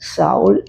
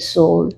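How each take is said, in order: First: The name begins with a 'sh' sound. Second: The name begins with an 's' sound. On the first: This is the Malayalam reading. "മലയാളത്തിൽ" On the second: This is the English reading. "Pronounce ചെയ്യുന്നത് ഇംഗ്ലീഷിൽ"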